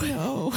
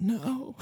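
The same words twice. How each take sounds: First: High, quiet, tearful cracking voice; imitating a crying wail of no. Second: Crying voice. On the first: Shown as a demonstration. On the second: Retold or imitated. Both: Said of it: "This is my impression of my crying voice".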